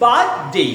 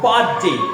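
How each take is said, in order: First: The stress is on the first syllable. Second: The stress is on the second syllable. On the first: The speaker calls it right. "কোনটা stress birth" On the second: The speaker calls it wrong. "আমরা অনেক সময় birthday, আসলে শব্দটা এরকম না"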